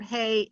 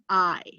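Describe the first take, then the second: First: The word sounds like English "hey". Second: The word sounds like English "eye". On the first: The speaker calls it wrong. "Don't ever pronounce it hey. It's not hey" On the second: The speaker calls it right. "it's I"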